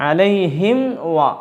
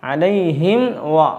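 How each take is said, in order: Both takes have the same delivery.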